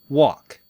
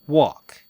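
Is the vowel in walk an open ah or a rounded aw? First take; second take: rounded aw; rounded aw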